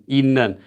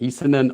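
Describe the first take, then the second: First: The first syllable ends in a nasal sound. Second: The first syllable ends in a stop sound. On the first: The speaker calls it right. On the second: The speaker calls it wrong. "how do I say 있는, It's not like that"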